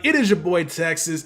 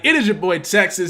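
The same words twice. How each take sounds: First: It is said at a calmer volume. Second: It is yelled loudly and screechily.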